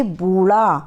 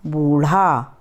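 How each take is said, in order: First: बूढ़ा said as "बूला"; बूढ़ा with an l sound, not ढ़; wrong way, flap as l. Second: बूढ़ा carefully, lower; बूढ़ा said again with care, lower and deliberate; correct take, slower. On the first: (गलत उच्चारण: बूढ़ा को "बूला") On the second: (सही उच्चारण: बूढ़ा, ध्यान से) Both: Shown as a demonstration. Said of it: "इसमें हम अक्सर गलतियाँ कर देते हैं".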